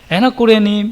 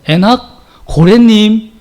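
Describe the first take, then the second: First: The name is called out calmly. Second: The name is shouted out loudly. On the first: The caller knows the name's real meaning. "예수 믿는 사람들이 부르면" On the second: The caller hears the name as a whale. "예수 믿지 않는 사람이 부르면 ... 고래고래 소리를 지르며 찾습니다"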